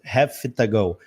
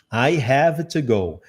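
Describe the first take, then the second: First: "have to go" with the v of "have" turned into an f; connected speech. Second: "I have to go" said slowly, each word clear; careful demo. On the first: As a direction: run "have to go" together as "hafta go". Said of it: "o Vzinho no final vai virar um F". ("have to go" com o V virando F, tudo junto) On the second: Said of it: "você vai ouvir have to go". (lentamente, "I have to go" palavra por palavra) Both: Shown as a demonstration.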